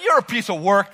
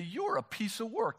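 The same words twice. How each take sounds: First: The phrase is said in a mocking tone. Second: The phrase is said in a warm tone. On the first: The listener is called difficult or odd. The speaker calls it wrong. "be careful how you say it. Because if you say" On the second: The listener is praised as specially made. The speaker calls it right. "Just turn to the person next to you and say"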